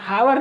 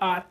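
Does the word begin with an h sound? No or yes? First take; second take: yes; no. First: The word begins with an h sound. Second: The word begins with a vowel, no h. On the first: The speaker calls it wrong. "बहुत लोग हावर पढ़ते हैं, हावर नहीं दोस्तों" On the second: The speaker calls it right. "आर होता है आर"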